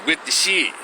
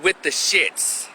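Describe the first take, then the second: First: The last word ends without an s sound. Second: The last word ends with an s sound. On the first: The speaker calls it right. "It's with the shit" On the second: The speaker calls it wrong. "It's not with the shits. It's not pronounced with the shits"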